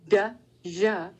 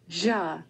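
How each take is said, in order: First: The d and j are said as separate sounds. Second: The d and j are blended into one sound. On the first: The speaker calls it wrong. "You don't say da, ja" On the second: The speaker calls it right. "You say ja. And you release the airflow with the ja"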